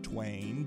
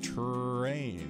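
First: The r is replaced by a w sound. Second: The r is strong and drawn out. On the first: This is how young children say it. "they'll say twain" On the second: It models the sound so children hear it. "We say terrain and share that hard R"

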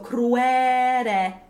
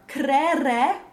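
First: Only the first syllable has a W sound. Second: Neither syllable has a W sound. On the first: "we could just put the W after the first syllable" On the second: "where there's no W but just two S in a row"

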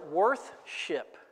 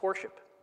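First: A clear 'th' sound comes before 'ship'. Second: No 'th' sound comes before 'ship'. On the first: This is the older, fuller form of the word. "worth-ship was too hard to say" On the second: This is the simplified modern form of the word. "That's worship"

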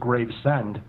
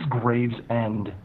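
First: The name is split as grave-send. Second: The name is split as graves-end. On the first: "Like I'm sending you a grave" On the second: "maybe it is Gravesend"

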